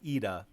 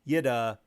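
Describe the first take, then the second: First: The name begins directly with a vowel. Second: The name begins with a Y sound. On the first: The speaker calls it right. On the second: The speaker calls it wrong.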